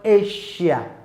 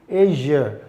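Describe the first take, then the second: First: The middle consonant is not a zh sound. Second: The middle consonant is a voiced zh sound. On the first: The speaker calls it wrong. "not Asia" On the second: The speaker calls it right. "it is Asia"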